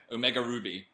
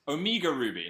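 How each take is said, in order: First: Omega said as oh-MEH-ga; Omega Ruby with a short EH in Omega; corrected Omega. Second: Omega said as oh-MEE-ga; Omega Ruby with a long EE in Omega; mispronounced Omega. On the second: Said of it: "No wonder I could remember that". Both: Shown as a demonstration.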